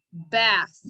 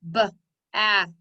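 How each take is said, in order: First: Said in the usual way. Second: "B-a-th" in three separate sounds, b, a, th; tapped-out sounds. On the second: Shown as a demonstration. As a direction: sound out "B-a-th" piece by piece. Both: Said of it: "Tap it out".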